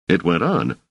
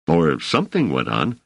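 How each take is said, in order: First: "on" stressed at the end, falling. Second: "something" picked out, tune rising at the end; stress on SOMETHING. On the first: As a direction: land the weight on "on" and let it fall. Self-correction, stress moves. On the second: Corrects to vaguer word. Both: Acted.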